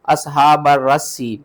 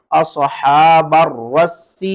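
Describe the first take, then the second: First: "اصحاب الرسی" with a long ee at the end, the wrong way; wrong reading. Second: "اصحاب الرس" with a doubled, hard raa and seen, chanted slowly; correct reading. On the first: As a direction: say "اصحاب الرسی" slowly, stretching the final ee. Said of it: "غلط پڑھتے ہیں". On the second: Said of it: "دو بار سختی کے ساتھ". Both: Shown as a demonstration.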